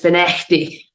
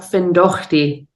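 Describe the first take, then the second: First: The name is said the local way. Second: The name is said the way it is spelled. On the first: The speaker calls it right. "it's Finechty" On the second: The speaker calls it wrong. "It's not Findochty"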